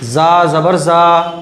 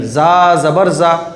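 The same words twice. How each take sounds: First: The final vowel is drawn out long. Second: The final vowel is kept short. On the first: The speaker calls it wrong. "तो ये गलत हो गया, क्योंकि बिल्कुल भी नहीं खींचना है" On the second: The speaker calls it right. "बल्कि खिंचेगा नहीं"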